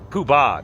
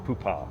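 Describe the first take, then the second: First: The second syllable starts with a b sound. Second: The second syllable starts with a p sound. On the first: The speaker calls it right. "I think it's Poo Poobah" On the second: The speaker calls it wrong. "not Poopah"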